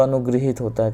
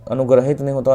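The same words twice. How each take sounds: First: अनुगृहित said as a-nu-gri-hit, with ri after g; teacher showing the right form अनुगृहित; correct spelling read out. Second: अनुग्रहित said as a-nu-grah-hit, with a full short a after r; teacher showing the wrong form अनुग्रहित; wrong spelling read out. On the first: Teacher gives students the correct word, a plain demo. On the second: Teacher reads students the rejected spelling, a plain demo. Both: Shown as a demonstration.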